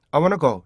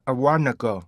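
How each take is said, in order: First: Konglish "I wanna go", higher and louder; wrong rhythm, Korean learner's accent; Korean-accented English. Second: "I wanna go" with stressed WAN and long gliding "go"; native-like "I wanna go", weak "na"; native English rhythm. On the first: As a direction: read "I wanna go" in quick Korean syllables. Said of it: "절대 이렇게 안 읽어요". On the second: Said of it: "이렇게 읽거든요". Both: Shown as a demonstration.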